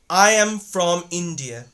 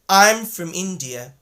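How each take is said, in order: First: From is said with a full aw vowel. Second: From is said with a reduced uh vowel. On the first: The speaker calls it wrong. "won't say that" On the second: The speaker calls it right. "but rather they're gonna say"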